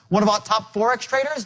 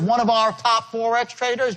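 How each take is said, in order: First: The small words are run together and reduced. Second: Each small word is said separately and fully. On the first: The speaker calls it right. "contract these words together" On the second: The speaker calls it wrong. "So it's not"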